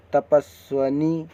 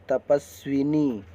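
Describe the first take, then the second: First: तपस्वनी slow, with "swa" in the middle; wrong middle vowel. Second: तपस्विनी with "swi" in the middle; "tapas-swinee" for तपस्विनी; correct middle vowel. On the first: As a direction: sound out तपस्वनी slowly without i after v. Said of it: "नहीं, तपस्विनी". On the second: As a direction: sound the short i after v in तपस्विनी. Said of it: "इस तरह लिखा और पढ़ा बोला जाएगा". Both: Shown as a demonstration.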